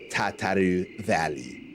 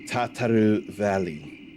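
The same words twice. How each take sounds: First: The name is said with a French accent. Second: The name is said without much French accent. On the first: The speaker calls it right. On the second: The speaker calls it wrong.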